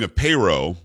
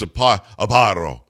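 First: The name is said with an English-style vowel. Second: The name is said with an Italian-style vowel. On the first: This is how someone else says the name. "I think he's saying a payro" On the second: This is the guessed original pronunciation. "I'm guessing it's a paro"

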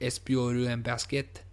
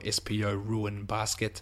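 First: The name is said in a put-on French accent. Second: The name is said in a plain English accent.

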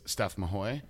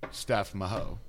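First: The surname ends with an 'oy' sound. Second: The surname ends with an 'o' sound. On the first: The speaker calls it right. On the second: The speaker calls it wrong.

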